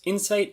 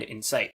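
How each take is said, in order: First: "insight" with the stress on IN; IN-sight, first syllable stronger. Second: "incite" with the stress on CITE; in-CITE, second syllable stronger. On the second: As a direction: say "incite" leaning on the last syllable. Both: Shown as a demonstration. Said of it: "stress is the difference between the words".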